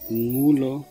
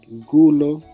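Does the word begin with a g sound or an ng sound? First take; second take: ng; g. First: The word begins with a single ng sound. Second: The word begins with a plain g sound. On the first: The speaker calls it right. "ng es una sola pronunciación" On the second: The speaker calls it wrong. "si se pronunciara gulo o gucudo, se va a sonar muy mal"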